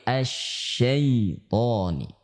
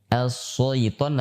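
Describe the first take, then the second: First: The first consonant is a doubled sh sound. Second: The first consonant is a plain s sound. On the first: The speaker calls it right. "tapi asy-syaitoni" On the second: The speaker calls it wrong. "tidak boleh dibaca as-syaiton"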